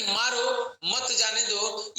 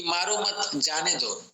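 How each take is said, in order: First: मारो, then a break, मत जाने दो as one phrase; pause after मारो. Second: मारो मत as one phrase, a break, then जाने दो; pause after मत. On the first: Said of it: "ये पहला नजरिया है". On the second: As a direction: split it after मत, keep मत with मारो. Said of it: "एक दूसरा नजरिया ये भी है". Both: Shown as a demonstration.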